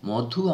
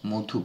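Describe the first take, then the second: First: The first vowel is an open 'aw' sound. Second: The first vowel is a closed 'oh' sound. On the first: The speaker calls it wrong. "মধু আমরা বলি না" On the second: The speaker calls it right. "মো, ম নয়"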